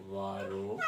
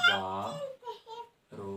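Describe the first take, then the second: First: Said in the usual way. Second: वारो very slow, split into "vaa", pause, "ro"; syllable by syllable. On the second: Shown as a demonstration. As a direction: dictate वारो with a long gap between syllables. Teacher dictating a term slowly.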